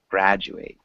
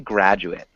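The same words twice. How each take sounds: First: The last syllable sounds like 'eight'. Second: The last syllable sounds like 'it'. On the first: It is the verb, meaning to finish school. "And then it sounds like eight" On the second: It is a noun or adjective for a person.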